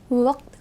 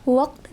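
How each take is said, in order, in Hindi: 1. इसमें सामने वाला सादा k सुनाई देता है। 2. इसमें गहरा, गले से निकलने वाला q सुनाई देता है। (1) "वक्त को" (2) "वक्त बोलने में वक्त लगेगा"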